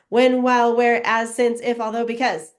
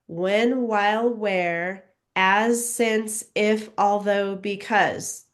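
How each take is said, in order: First: The words are read at a very fast pace. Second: The words are read at a faster pace. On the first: "super fast" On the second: "a little bit faster"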